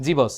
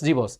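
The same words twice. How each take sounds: Both takes have the same delivery.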